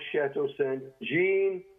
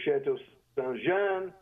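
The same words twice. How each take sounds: First: The name is pronounced in an English way. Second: The name is pronounced in a French way.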